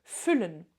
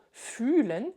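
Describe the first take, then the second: First: "füllen" with a short, clipped ü before the double l. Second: "fühlen" with a long, drawn-out ü. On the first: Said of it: "Si je le dis avec un U court". ("füllen" avec un ü bref) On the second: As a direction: stretch the ü in "fühlen". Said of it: "Et je dois le prononcer avec un U long". ("fühlen" avec un ü long et étiré) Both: Shown as a demonstration.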